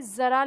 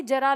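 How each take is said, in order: First: ज़रा said with a z, "zara"; जरा with a buzzing z as in zoo; nukta z sound. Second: जरा said with a plain j, "jara"; जरा with j as in jar, no nukta; plain ja sound. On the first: Teacher contrasts ज़रा meaning a little, z sound. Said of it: "तो इसका मतलब होगा थोड़ा". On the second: Teacher contrasts जरा meaning old age, j sound. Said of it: "तो इसका मतलब हो जाएगा बुढ़ापा". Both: Shown as a demonstration.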